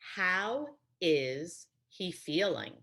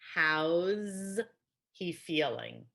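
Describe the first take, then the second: First: The words how and is are said separately. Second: How and is merge, ending in a z sound.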